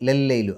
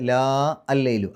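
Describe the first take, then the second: First: The first vowel is short. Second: The first vowel is long. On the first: The speaker calls it right. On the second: The speaker calls it wrong.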